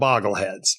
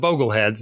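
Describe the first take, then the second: First: The first vowel is short, as in 'log'. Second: The first vowel is long, as in 'go'. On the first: The speaker calls it wrong. "not the Boggleheads" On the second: The speaker calls it right. "his followers are the Bogleheads"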